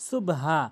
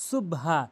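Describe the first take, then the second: Both takes have the same delivery.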